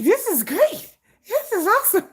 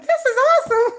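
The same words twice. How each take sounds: First: High giddy squeal; excited squeal. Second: High, loud delighted squeal; excited squeal. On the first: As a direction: gush over it, delighted. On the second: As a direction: squeal with glee. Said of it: "I'm like". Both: Retold or imitated.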